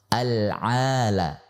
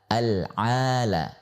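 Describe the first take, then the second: No difference in how they are said.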